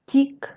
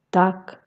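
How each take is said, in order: First: "tic" with a soft, palatalized Russian t; soft consonant. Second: "tac" with a hard, unpalatalized t; hard consonant. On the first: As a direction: soften the t of "tic" with the tongue raised to the palate. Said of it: "en consonnes molles". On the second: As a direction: keep the t of "tac" hard before the a. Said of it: "les consonnes dures". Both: Shown as a demonstration.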